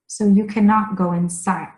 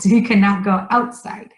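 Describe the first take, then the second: First: Said in the usual way. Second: "outside" stressed as the corrected word. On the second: Shown as a demonstration. Teacher corrects a slip about the rain, stressing "outside". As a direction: lean on "outside" to fix the slip. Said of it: "Oh, oh".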